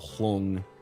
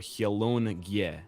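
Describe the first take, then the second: First: The N and G blend, as in 'long'. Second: The N and G are split into syllables. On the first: The speaker calls it wrong. "like the word long" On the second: The speaker calls it right. "the N and G pronounced separately"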